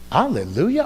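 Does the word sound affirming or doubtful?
doubtful. The word sounds doubtful and questioning. The speaker cannot believe there is anything to praise. "Are you crazy?"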